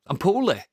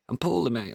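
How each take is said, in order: First: "poorly" pitched up high in a self-pitying whine; hammed-up sick moan; mock poorly whine. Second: Said in the usual way. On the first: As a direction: play up being ill, whining "I'm poorly" high.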